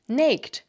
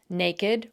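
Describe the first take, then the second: First: The ending is only a final consonant sound. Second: The ending is said as its own syllable. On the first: "If these words were pronounced like most English words ending in ed" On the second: "has the same unusual pronunciation of the suffix ed"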